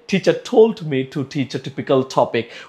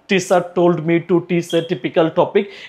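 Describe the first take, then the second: First: The t sounds are strongly aspirated. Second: The t sounds are flat and unaspirated. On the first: The speaker calls it right. "ঠ sound দিয়ে" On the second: The speaker calls it wrong. "এরকম না বলে"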